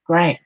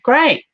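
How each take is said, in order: First: Said in the usual way. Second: "Great." sung out high and loud; excited "Great.". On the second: Real, not acted. Medium cheers client's move to Queensland, high bright "Great.". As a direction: cheer the word "Great." with a jump up.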